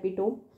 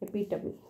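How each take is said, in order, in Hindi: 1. शब्द का अंत 'tome' वाली आवाज़ से होता है। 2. शब्द का अंत 'tuh-mee' वाली आवाज़ से होता है। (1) "आपको स्पेलिंग के लिए ये हेल्पफुल होता है" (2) "ये है इसका साउंड"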